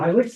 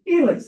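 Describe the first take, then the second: First: It begins with an 'eye' sound. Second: It begins with an 'ee' sound. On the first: The speaker calls it wrong. "It's not Ilex" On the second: The speaker calls it right. "I's are pronounced E"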